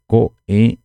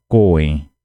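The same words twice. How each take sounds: First: "coen" em duas partes, "co", pausa, "en"; pronúncia cortada. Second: "coen" ligado, sem pausa entre "co" e "en"; pronúncia emendada. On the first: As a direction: corte "coen" logo depois de "co". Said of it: "Seria coen e não coen". ("coen" com corte seco no meio) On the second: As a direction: emende "coen" numa palavra só. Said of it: "e não coen". ("coen" sem corte no meio) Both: Shown as a demonstration.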